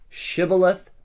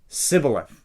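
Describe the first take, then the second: First: The word begins with an sh sound. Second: The word begins with a plain s sound. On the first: This is how the people of Gilead say it. "Say the word Shibboleth" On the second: This is how the people of Ephraim say it. "they can't pronounce the S H, they just say Sibboleth"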